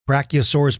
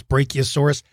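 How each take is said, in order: First: Brachiosaurus with "brack-ee" at the start; Brachiosaurus one way. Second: Brachiosaurus with "bray-kee" at the start; Brachiosaurus the other way. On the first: Host showing kids Brachiosaurus said with "brack-ee". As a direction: open Brachiosaurus with a short "brack". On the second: Host showing kids Brachiosaurus said with "bray-kee". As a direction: open Brachiosaurus with a long "bray". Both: Shown as a demonstration. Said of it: "It's all okay".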